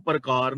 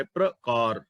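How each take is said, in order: First: ਪ੍ਰਕਾਰ said "par-kaar", vowel between p and r; split first cluster. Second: ਪ੍ਰਕਾਰ said "pra-kaar", p and r joined; low, careful ਪ੍ਰਕਾਰ opening on a tight "pra"; joined pr cluster. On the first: Teacher shows listeners how not to read scripture, ਪ੍ਰਕਾਰ as "par-kaar". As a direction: break up the opening pr of ਪ੍ਰਕਾਰ into "par". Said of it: "ਇਹਨੂੰ ਪ੍ਰਕਾਰ ਨਹੀਂ ਪੜ੍ਹਨਾ". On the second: Teacher models scripture reading for listeners, ਪ੍ਰਕਾਰ as "pra-kaar". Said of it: "ਪ੍ਰ ਬੋਲਣਾ ਹੈ". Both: Shown as a demonstration.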